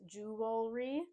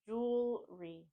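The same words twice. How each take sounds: First: The word has three syllables with a middle vowel. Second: The word starts with jewel and adds re. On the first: The speaker calls it wrong. "making it three syllables" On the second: The speaker calls it right.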